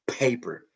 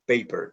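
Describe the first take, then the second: First: The first p is said with a puff of air. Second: The first p is said without a puff of air. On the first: The speaker calls it right. "with some air that is flowing" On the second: The speaker calls it wrong. "It's not paper"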